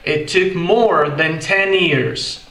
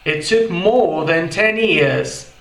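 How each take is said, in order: First: It is said in an American accent. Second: It is said in a British accent. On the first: "Já no inglês americano fica" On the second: "isso no inglês britânico"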